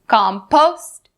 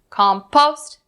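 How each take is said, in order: Both takes have the same delivery.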